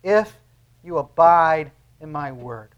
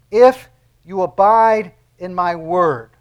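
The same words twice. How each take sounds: First: "If" set apart by a pause, then "abide" leaned on slowly; stress on IF. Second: "If" punched loud, then the rest slow and weighty; stress on IF. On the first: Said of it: "You see the word there?". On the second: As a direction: lean hard on "If", draw out "you abide in my word". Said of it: "I want you to look closely at the "if". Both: Shown as a demonstration.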